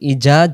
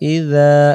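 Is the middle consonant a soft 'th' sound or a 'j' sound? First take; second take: j sound; th sound. First: The middle consonant is a 'j' sound. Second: The middle consonant is a soft voiced 'th'. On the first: The speaker calls it wrong. "তখন দুই অক্ষরে জিমে রূপান্তরিত হবে" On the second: The speaker calls it right. "সেখানে দাল অক্ষর"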